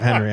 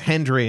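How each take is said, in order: First: The name is said without a d sound. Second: A d sound is added after the n. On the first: This is the usual way to say the name. "instead of Henry" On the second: This is how the character says the name. "says Hendry"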